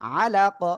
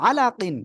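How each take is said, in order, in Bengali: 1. শব্দটি শুধু 'q' ধ্বনি দিয়ে শেষ হয়। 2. শব্দটি 'qin' ধ্বনি দিয়ে শেষ হয়। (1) "ওয়াকফ করলে কি হবে?" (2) "কফ দুই জের কিন"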